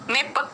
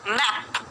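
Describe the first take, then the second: First: The vowel is a short e sound. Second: The vowel is an open ae sound. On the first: The speaker calls it wrong. "मेप नहीं होता है" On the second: The speaker calls it right. "मैप मतलब मैप"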